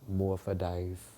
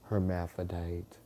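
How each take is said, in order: First: The word is shortened, dropping the opening syllable. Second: The word is said in full with every syllable. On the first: This is the local New Orleans way of saying it. "in New Orleans, ... we would say morphodite" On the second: This is the standard way of saying it. "instead of us saying hermaphrodite"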